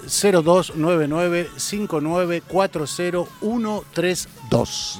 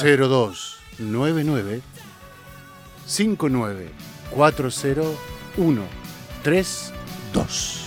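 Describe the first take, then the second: First: The number is read at normal, quicker speed. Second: The number is read more slowly.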